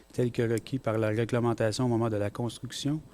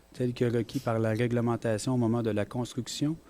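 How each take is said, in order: No difference in how they are said.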